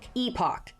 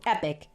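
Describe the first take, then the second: First: It is said with a British pronunciation. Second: It is said with an American pronunciation. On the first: "if you like the British pronunciation" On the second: "if you like the American"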